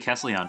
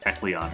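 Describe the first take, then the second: First: The second syllable sounds like 'sel'. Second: The second syllable sounds like 'cle'. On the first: The speaker calls it wrong. "I keep saying Kesselion because I'm used to that pronunciation" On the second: The speaker calls it right. "I know it's like a Kecleon or something"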